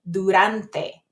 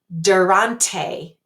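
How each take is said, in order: First: The d and t are Spanish dental sounds. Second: The d and t are English-style sounds. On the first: The speaker calls it right. "it's durante" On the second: The speaker calls it wrong. "the first word isn't durante"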